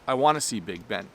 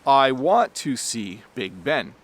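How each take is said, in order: First: It is said quickly with want to reduced. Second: It is said slowly with full words.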